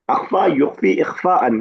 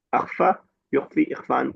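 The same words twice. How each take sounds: First: Slow, louder spelling-out of اخفا یخفی اخفاءً, each form stressed; slow emphatic drill. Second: Said in the usual way. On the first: Shown as a demonstration. Teacher drilling the verb forms for students, slow and loud. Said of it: "کسی چیز کا چھپانا". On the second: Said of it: "اخفا اسی سے".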